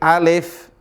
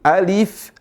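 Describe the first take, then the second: First: The second vowel sounds like E. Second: The second vowel sounds like I. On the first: The speaker calls it wrong. "seringkali dibaca pakai E" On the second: The speaker calls it right. "Bukan E, alif, tapi pakai I"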